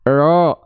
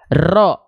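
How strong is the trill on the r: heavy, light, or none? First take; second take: none; heavy. First: The r has no trill at all. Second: The r is trilled long and heavily. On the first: "Nggak jadi juga hilang" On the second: "Itu getarannya terlalu berlebihan"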